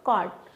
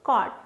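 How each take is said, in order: No difference in how they are said.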